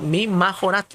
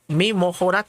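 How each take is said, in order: First: The middle vowel sounds like 'a'. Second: The middle vowel sounds like 'o'. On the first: "aquí les estoy diciendo mi majorat" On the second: "algunos la pronuncian mi mojorat"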